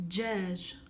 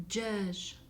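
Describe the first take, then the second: No difference in how they are said.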